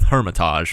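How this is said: The word mixes English and French pronunciation. This is a compromise between both ways. "maybe I'll blend the two"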